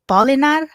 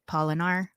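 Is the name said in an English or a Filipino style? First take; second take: Filipino; English. First: The name is said in a Filipino style. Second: The name is said in an English style. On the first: This is the authentic version from the speaker's heritage. "if you were to be authentically of pronouncing it" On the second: This is the easy version used in the West. "It's easy to pronounce here in the Western world"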